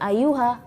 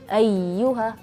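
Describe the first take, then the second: First: The y sound is short and not doubled. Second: The y sound is doubled with raised voice. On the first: The speaker calls it wrong. "jangan ayuha" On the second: The speaker calls it right. "tapi ayyuha"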